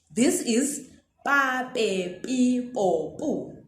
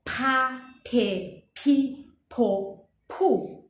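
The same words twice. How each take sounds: First: "pa, pe, pi, po, pu" with plain unaspirated p, slow; gentle p series; soft unaspirated P syllables. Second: "pa, pe, pi, po, pu" with aspirated ph, puffs of air; aspirated P syllables. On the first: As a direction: say each syllable softly without air. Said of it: "Do you hear that is softer". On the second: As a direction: blow air after each p. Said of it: "Do you hear that is softer than". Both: Shown as a demonstration.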